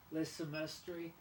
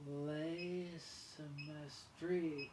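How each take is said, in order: First: Le semestre said a bit slowly; French le semestre. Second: Le semestre drawn out very slowly; very slow French le semestre. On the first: Teaching viewers French, repeats le semestre a bit slowly. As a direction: say le semestre once more. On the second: Teaching viewers French, drags le semestre out very slowly. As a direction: stretch out le semestre syllable by syllable. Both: Shown as a demonstration. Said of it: "we have the French word".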